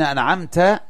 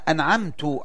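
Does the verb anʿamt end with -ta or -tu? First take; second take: -ta; -tu. First: The verb ends with a -ta sound. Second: The verb ends with a -tu sound. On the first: The blessing is attributed to God, addressed directly. The speaker calls it right. "يعني أنت يا الله" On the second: The blessing is attributed to the speaker himself. The speaker calls it wrong. "نسب النعمة لنفسه ولم ينسبها إلى الله"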